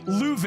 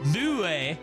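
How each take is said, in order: First: The name is pronounced the French way. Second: The name is pronounced in an anglicized way. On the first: The speaker calls it right. "it's properly Louve" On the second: The speaker calls it wrong. "they call Louve, Lue"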